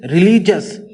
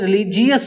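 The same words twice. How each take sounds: First: The ending is blended into one single syllable. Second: The ending is split into two separate syllables. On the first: The speaker calls it right. "It is रिलीजियस" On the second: The speaker calls it wrong. "ये रिलीजियस आपने पढ़ा होगा, जीएस कभी भी नहीं पढ़ना"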